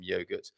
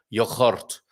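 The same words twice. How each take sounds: First: The word has an ordinary everyday pronunciation. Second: The word has an exaggerated foreign-sounding pronunciation. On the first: "apart from yogurt"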